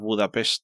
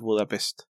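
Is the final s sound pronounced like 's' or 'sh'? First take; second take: sh; s. First: The final s sounds like sh. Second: The final s sounds like a plain s. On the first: The speaker calls it right. "es Budapest" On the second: The speaker calls it wrong. "no es Budapest"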